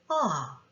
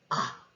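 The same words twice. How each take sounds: First: The pitch of the vowel falls. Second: The vowel is cut off abruptly and short. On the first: "내려오거나" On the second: "이렇게 짧게까지 끊어지는 소리"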